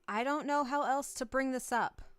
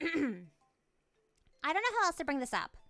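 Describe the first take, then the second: First: It is said in the speaker's own voice. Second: It is said in a put-on character's voice.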